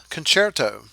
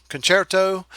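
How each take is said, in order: Both takes have the same delivery.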